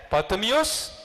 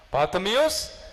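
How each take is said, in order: Both takes have the same delivery.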